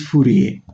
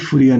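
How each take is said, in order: First: The name is pronounced the French way. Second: The name is pronounced the English way. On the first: "the French pronunciation of Fourier is Fourier" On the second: "better to call it Fourier number"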